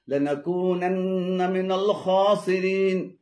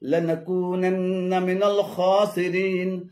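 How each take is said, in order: Both takes have the same delivery.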